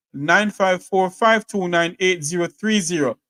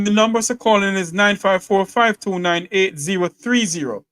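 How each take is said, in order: First: Slow, careful dictation of each digit; slow repeat of the number. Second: Said in the usual way. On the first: Shown as a demonstration. Host slowly repeats the call-in number for listeners. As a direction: read the digits out slowly and deliberately. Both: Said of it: "If you want to call in".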